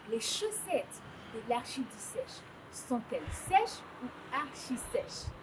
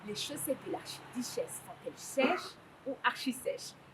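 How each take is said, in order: First: The sentence is spoken at a slow pace. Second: The sentence is spoken at a fast pace. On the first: "quand je dis ça doucement, ça a l'air facile" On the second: "essayons de dire ça plus vite"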